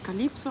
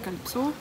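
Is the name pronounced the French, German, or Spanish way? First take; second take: Spanish; French. First: The name has Spanish sounds. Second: The name has French sounds. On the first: "auf Spanisch spricht man es Calypso aus" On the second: "auf Französisch Calypso"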